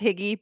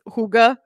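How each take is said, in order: First: The word is pronounced like 'higgy'. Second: The word is not pronounced like 'higgy'. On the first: The speaker calls it wrong. "I want to pronounce this Higgy, but it's not" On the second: The speaker calls it right. "It's Hygge"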